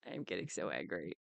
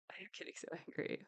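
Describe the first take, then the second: First: Much lower and softer, seething; low simmering anger. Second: Fast unvoiced whisper; whispered anger. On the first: Telling viewers she's angry, low seething voice. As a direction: hold the anger down in the chest. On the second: Repeating to viewers in a rushed whisper. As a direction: spit it out under your breath. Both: Real, not acted.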